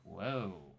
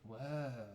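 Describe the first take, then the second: First: It sounds cautious and unexcited. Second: It sounds cautious and unexcited.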